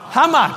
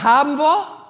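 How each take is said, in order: First: The words are squeezed together into one short form. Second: Both words are pronounced fully and separately.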